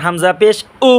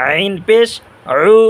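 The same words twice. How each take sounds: First: উ from the start of the throat; plain glottal onset on উ, no squeeze; clean hamza. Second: উ squeezed from mid-throat; mid-throat ain. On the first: Teacher warning against confusing letters, clean open উ. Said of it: "গলা শুরু হইতে". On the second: Teacher contrasting ain with hamza, squeezed mid-throat উ. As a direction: constrict the middle of the throat on উ. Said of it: "আইন গলার মাঝখান". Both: Shown as a demonstration.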